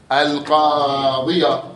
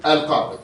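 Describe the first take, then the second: First: "القاضية" بياء مفتوحة ممدودة، ببطء; أظهر فتحة الياء في "القاضية"; وصل بالفتحة. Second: "القاضي" تُختم بياء ساكنة; قفْ على "القاضي" بلا حركة; وقف بالسكون. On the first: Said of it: "وإذا تكمل شو تقول". (الوصل بالفتحة ببطء) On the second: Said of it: "إذا تقف شو تقول". (الوقف على الياء) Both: Shown as a demonstration.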